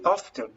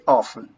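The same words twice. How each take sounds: First: The word is said with a T sound. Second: The word is said without a T sound. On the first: This is more usual in Britain or Australia. "this is okay if you say very often, but it's not usual for Americans" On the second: This is the usual American way. "Americans don't pronounce the letter T in that situation"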